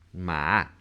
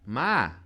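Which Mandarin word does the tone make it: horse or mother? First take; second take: horse; mother. First: It has the tone of the word horse. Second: It has the tone of the word mother. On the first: The word means horse. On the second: The word means mother. "mãe"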